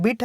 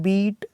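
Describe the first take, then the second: First: बिट with a short i; short vowel. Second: बीट with a long, held ee; long vowel. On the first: Teacher contrasting the first word for students, short vowel. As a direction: keep the i in बिट brief. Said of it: "short sound है". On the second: Teacher contrasting the second word for students, long vowel. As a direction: stretch the ee in बीट. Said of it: "इसका sound long है". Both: Shown as a demonstration.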